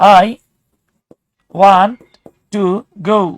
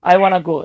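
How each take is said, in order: First: "Want to" is said fully as two words. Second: "Want to" is reduced to "wanna".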